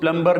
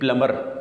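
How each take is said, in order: First: A b sound is heard after the m. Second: No b sound is heard after the m. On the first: The speaker calls it wrong. "इसको प्लम्बर नहीं कहेंगे" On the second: The speaker calls it right. "इसमें बी silent है"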